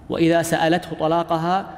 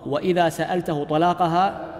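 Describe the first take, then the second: No difference in how they are said.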